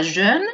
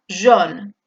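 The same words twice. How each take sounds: First: Jeune with the French EU vowel, wrong take. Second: Jaune with the round O vowel, right take. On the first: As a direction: say jeune with rounded E. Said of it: "pronunciándome como si el diptongo fuera E U". (jeune con E francesa) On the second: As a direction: say jaune with a clear O. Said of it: "con una O". (jaune con O) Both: Shown as a demonstration.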